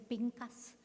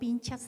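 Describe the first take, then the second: First: The middle consonant is a 'k' sound. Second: The middle consonant is a 'ch' sound. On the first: "no sé si es Pincas" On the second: "voy a decirles así como se escribe, pero se oye muy extraño"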